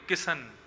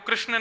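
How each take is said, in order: First: The name starts with a plain 'k' sound. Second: The name starts with a 'kr' cluster. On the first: "किशन बोलते हैं ना, उल्टा सीधा ही बोलते हैं" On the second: "पंजाब के लोग हैं वो कृष्ण नहीं बोलते"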